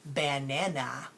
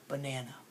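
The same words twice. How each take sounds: First: The first vowel is a full, open 'a'. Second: The first vowel is a weak, lazy 'uh'. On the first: "technically I should be saying banana" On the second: "I say banana"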